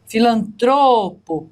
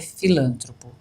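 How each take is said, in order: First: The stress falls on the third syllable. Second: The stress falls on the second syllable. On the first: The speaker calls it right. "paroxítona, terminada em ó" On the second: The speaker calls it wrong. "não é filântropo"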